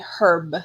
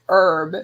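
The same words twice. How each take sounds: First: The word begins with an audible h sound. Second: The word begins with a vowel sound. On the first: This is the English way of saying it. "They say herb in England. ... in England they do pronounce the B" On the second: This is the American way of saying it. "Like we say herb. ... We don't pronounce the B"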